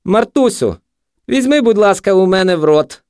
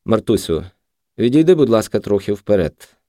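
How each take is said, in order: First: High, loud parody of a gentle request; exaggerated high-pitched mimicry; mocking mimicry. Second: Mild, softened tone; soft, gentle. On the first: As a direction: ape his tone in a jeering high voice. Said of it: "перекривив його інтонацію наркоман". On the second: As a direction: ask her kindly, unhurried. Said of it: "м'яко сказав Хомський". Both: A narrator's reading.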